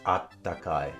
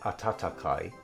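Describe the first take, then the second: First: The middle 'ta' is dropped, leaving a doubled 't'. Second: All three syllables 'a-ta-ta' are said in full. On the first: This is what people actually say. "everyone says attakai because it's easier to say" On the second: This is the technically correct reading. "technically, I suppose it should be re- read as atatakai"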